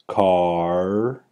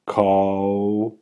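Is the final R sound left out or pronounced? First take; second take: pronounced; left out. First: The vowel moves clearly into an R sound. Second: The vowel never moves into an R sound. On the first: The speaker calls it right. "there's a clear transition from the low back ah, and the tracking B goes right into the R target" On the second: The speaker calls it wrong. "Now let's try a misarticulation"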